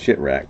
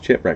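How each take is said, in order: First: It begins with a sh sound and shit. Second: It begins with a ch sound and chip. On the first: The speaker calls it wrong. "not shit-wreck" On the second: The speaker calls it right. "it's Chipwreck"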